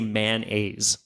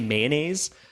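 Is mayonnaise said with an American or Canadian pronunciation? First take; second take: American; Canadian. First: It is said the American way, like two words. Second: It is said with a Canadian pronunciation. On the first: "Americans say mayonnaise. Like it's a two word thing" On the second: "Canadians say mayonnaise"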